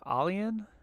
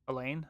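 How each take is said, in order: First: The name sounds like 'alien'. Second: The name sounds like 'Elaine'. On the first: The speaker calls it wrong. "I completely murdered it because I'm like" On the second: The speaker calls it right. "it's Elaine"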